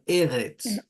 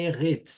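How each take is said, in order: First: The stress is on the first syllable. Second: The stress is on the second syllable. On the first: The speaker calls it right. "a primeira sílaba é a mais forte" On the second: The speaker calls it wrong. "não é erretes"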